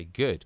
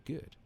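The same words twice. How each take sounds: First: Good said short and louder; punchy Good. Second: Said in the usual way. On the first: Shown as a demonstration. Coaching listeners, saying Good louder and firm. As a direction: snap out the word Good. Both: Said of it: "you say".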